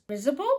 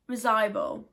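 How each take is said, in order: First: Risible? said unsure, rising; unsure mispronunciation. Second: Risible. said firmly, falling; corrected pronunciation. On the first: Vlogger stumbling over a hard word, unsure. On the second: Vlogger correcting himself on a hard word, firm. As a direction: settle on Risible. with a firm fall. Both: Shown as a demonstration.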